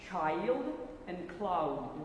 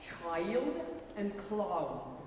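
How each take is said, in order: Both takes have the same delivery.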